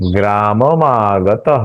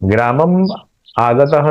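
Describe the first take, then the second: First: The final m joins onto the next vowel. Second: The final m is kept separate from the vowel. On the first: The speaker calls it right. "आधा मो आ के साथ जुड़ जाएगा" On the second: The speaker calls it wrong. "नहीं होगा"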